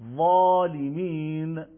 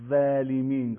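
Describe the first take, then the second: First: The first consonant is thick and heavy. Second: The first consonant is thin and light. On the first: The speaker calls it right. "اینجا با درشتی بیشتر ... میل ریشه زبان به سمت سخت" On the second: The speaker calls it wrong. "نمیگیم ولیمین، غلطه"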